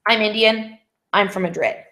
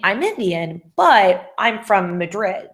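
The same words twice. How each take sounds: First: "I'm Indian" and "I'm from Madrid" as separate sentences, pause between; two separate statements. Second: Slow, drawn-out "but" linking both halves; flowing, linked by "but". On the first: Teacher showing students what not just to say, two separate statements. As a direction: break it after "Indian", no link into "I'm from Madrid". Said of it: "you're not just saying". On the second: Teacher showing students a good way to make it flow, stress on "but". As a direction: lean on "but" to join "Indian" to "Madrid". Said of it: "a good way to make that flow".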